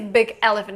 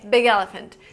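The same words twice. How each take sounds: First: The two words are said separately. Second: The two words run together like one word. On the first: The speaker calls it wrong. "You don't say big elephant" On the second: The speaker calls it right. "So it sounds just like one word"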